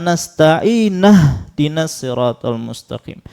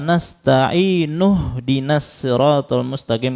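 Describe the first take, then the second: First: Nasta'in ends with an a vowel. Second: Nasta'in ends with an u vowel. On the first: The speaker calls it wrong. "harusnya dhammah diganti fathah" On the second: The speaker calls it right. "kan harusnya"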